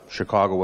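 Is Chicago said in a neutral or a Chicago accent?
neutral. It is said in a neutral accent.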